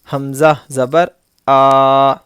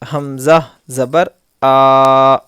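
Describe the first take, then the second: No difference in how they are said.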